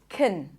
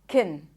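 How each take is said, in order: First: The word is unstressed with a reduced vowel. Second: The same.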